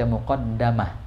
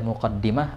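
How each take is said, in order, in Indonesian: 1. Vokal setelah d ganda adalah a. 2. Vokal setelah d ganda adalah i. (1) "atau bisa antum baca muqaddamah" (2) "Bisa antum baca muqaddimah"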